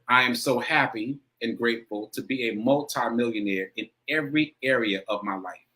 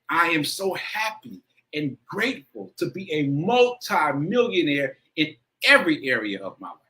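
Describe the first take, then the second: First: It is said plainly, without much emotion. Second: It is said with strong, heartfelt emotion.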